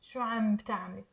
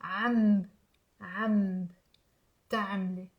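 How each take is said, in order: First: شو عم بتعملي run together quickly as "shu amb-taamle"; fast, low, connected شو عم بتعملي; B joined to previous word. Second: عم low and held, closing into a B, then تعملي; low, separated عم and تعملي, teaching the trick; B moved back. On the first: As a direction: link the B onto عم in one quick phrase. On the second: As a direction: split the phrase as "amb" then "taamle". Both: Shown as a demonstration. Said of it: "Imagine it's part of the previous word".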